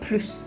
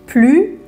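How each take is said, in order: First: The final s sound is pronounced. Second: The final s sound is silent. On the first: The sentence is positive. "با موردهای شروع کنیم که باید اس رو تلفظش کنیم" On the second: The sentence is negative. "موقع که منفیه بگید plus"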